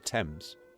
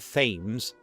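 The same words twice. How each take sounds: First: It begins with a plain t sound. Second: It begins with a th sound. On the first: The speaker calls it right. "they say the Thames" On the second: The speaker calls it wrong. "nobody says the Thames"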